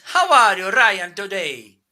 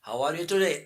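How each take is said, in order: First: Playful mock Italian accent, higher and louder. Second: Said in the usual way. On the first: Shown as a demonstration. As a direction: ham up an Italian accent for Ryan. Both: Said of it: "I can speak with Italian accent".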